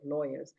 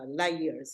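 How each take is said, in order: First: It is said in a standard accent. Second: It is said in a Punjabi accent, like liars. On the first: "instead of lawyers" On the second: "the way some Punjabis uh, say"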